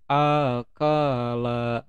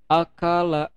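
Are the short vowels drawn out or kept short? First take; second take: drawn out; short. First: The short vowels are stretched out long. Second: The short vowels are kept short. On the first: The speaker calls it wrong. "yang pendek itu dipanjangin ... itu belum bener nih" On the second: The speaker calls it right. "seharusnya bacanya itu"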